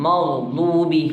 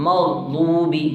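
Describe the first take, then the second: No difference in how they are said.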